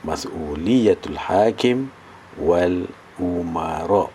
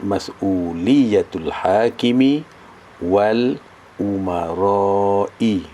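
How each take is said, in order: First: Said in the usual way. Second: "hakimi" and "umarai" with final i sounded; full case endings. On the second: Shown as a demonstration. Teacher shows students how the vowel marks read, endings fully voiced. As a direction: draw out "umarai", voicing its closing i. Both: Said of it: "baris dia macam tu".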